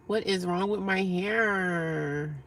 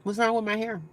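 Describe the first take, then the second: First: What is wrong with my hair, slowed to half pace with a hard WHAT; slow, stressed repeat. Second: Said in the usual way. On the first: Real, not acted. To a chat viewer about her hair, slow stressed challenge.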